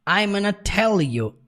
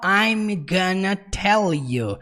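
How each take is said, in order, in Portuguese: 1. 'I'm gonna' é comprimido numa forma mais curta. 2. 'I'm gonna' é dito bem por completo. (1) "fica ainda mais contraído" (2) "ele não fala I'm gonna tell you"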